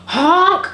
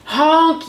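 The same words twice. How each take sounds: First: High, loud, rising honk; scared honk. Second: High, loud horn blast; yelled honk. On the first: Dump truck cries out from the mud, scared honk. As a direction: honk out in alarm. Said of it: "he sounded scared". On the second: Dump truck bears down on the animals, yelled honk. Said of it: "yelled a dump truck". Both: A narrator's reading.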